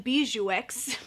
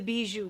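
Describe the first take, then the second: First: The name ends with a 'ks' sound. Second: The name ends in a vowel, no 'ks'. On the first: This is how Americans would probably say it. The speaker calls it wrong. "us Americans would probably say the Bijou X palette" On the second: This is the intended French way. The speaker calls it right. "it's supposed to be the Bijou palette"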